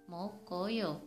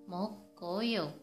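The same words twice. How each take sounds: Both takes have the same delivery.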